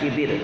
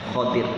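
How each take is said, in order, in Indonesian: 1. Vokal pertama adalah bunyi 'i' tertutup. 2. Vokal pertama adalah bunyi 'a' terbuka. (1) "Jadi bukan khidir" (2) "huruf ho-nya dengan harokat fathah"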